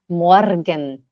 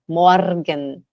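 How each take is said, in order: First: The R is pronounced strongly, pulled and rolled. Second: The same.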